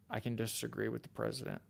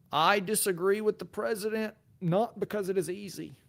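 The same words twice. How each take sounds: First: Said in the usual way. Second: Put-on higher-pitched Boston accent, speechmaking delivery; JFK. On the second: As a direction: declaim it like a Boston-accented president. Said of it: "J F K".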